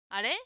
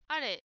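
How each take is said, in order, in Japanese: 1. この単語の音の高さは上がります。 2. この単語の音の高さは平らなままです。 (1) "このあれは上に上げて" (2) "ジムさんが、"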